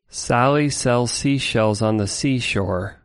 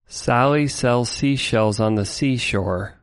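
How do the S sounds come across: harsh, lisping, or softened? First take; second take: harsh; softened. First: The S sounds are left unprocessed and full. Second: The S sounds are slightly toned down. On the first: "let's hear the normal one again" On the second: "let's switch to a de-est version"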